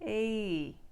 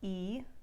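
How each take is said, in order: First: The vowel sound glides in before settling. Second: The vowel sound stays steady throughout. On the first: "what Australians do is this" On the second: "In their pure form"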